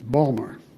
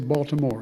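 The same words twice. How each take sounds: First: It is said the local Baltimore way. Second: It is said the standard, outsider way.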